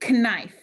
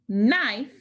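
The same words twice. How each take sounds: First: It begins with a k sound before n. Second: It begins with an n sound, k silent. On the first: This is how it was said long ago. "people would say knife" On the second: This is how it is said today. "like we do"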